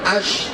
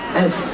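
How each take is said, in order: First: The s sound is heavy and thick. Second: The s sound is light and thin. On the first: The speaker calls it wrong. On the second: The speaker calls it right.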